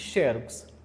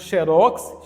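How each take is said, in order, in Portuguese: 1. A tônica está na primeira sílaba. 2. A tônica está na última sílaba. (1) "Tendo acento, paroxítona" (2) "Não tendo acento, oxítona"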